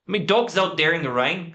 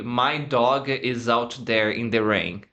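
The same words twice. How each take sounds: First: "My" said as "mi", higher; Irish guy: "mi dog's out there"; Irish accent. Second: Said in the usual way. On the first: Shown as a demonstration. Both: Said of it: "how would the Irish guy say".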